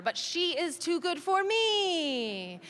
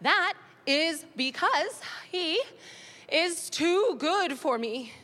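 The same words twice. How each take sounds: First: Slow, weighted stress on too, a touch of a mock sob; mock mournful stress. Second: Slow, weighted stress on too; dramatic slow stress. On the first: Ex voiced by the comic, slow mock-sad stress on too. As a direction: drag out but she is too good for me. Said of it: "imitates Daddy's reply". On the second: Retold or imitated. Mum stalling her daughter, drawn-out stress on too. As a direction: stretch out is too good for me. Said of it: "great question".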